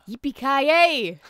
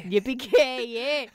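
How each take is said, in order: First: Slow, loud mock Scottish; bad Scottish accent. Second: Slow drawn-out Scottish Yippee-ki-yay; hammed-up brogue take; bad Scottish accent. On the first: Trying Die Hard catchphrase in Scottish accent. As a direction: stretch it out in a hammed-up brogue. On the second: Trying the Die Hard line once more in Scottish. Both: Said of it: "give me something else to say".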